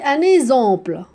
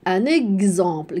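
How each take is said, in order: First: The x is not sounded as gz. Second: The x is sounded as gz. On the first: The speaker calls it wrong. "Ah, c'est faux" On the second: The speaker calls it right.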